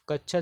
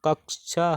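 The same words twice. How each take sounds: First: कच्छा read out with a plain च्छ sound; कच्छा said as it is written, with चh; question word as written. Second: कक्षा said with a clear क्ष cluster; कक्षा pronounced carefully with a क्ष sound; correct pronunciation. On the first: Teacher reads out the quiz word कच्छा before correcting it. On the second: Teacher gives the correct form कक्षा, clearly enunciated. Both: Shown as a demonstration. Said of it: "कच्छा शब्द का शुद्ध उच्चारण".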